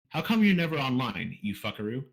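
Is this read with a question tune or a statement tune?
statement. It is read with a flat statement tune. The speaker calls it wrong.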